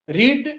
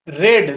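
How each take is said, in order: First: The vowel is long, like 'reed'. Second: The vowel is short, like 'red'.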